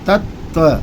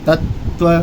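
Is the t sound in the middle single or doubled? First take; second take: doubled; doubled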